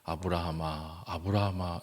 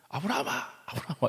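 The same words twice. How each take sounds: First: The name is called slowly and solemnly. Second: The name is called fast and urgently. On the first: The angel speaks with calm authority. The speaker calls it wrong. "굉장히 천사가 근엄하게" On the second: The angel rushes to stop him in time. The speaker calls it right. "굉장히 급하게 쳤어요"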